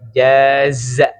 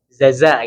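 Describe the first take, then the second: First: The word begins with a j sound. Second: The word begins with a z sound. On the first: The speaker calls it right. "Yang betul ja dulu, jim dulu baru zai" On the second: The speaker calls it wrong. "Banyaknya orang baca jaza ya. Zaza gitu ya. Itu salah ya"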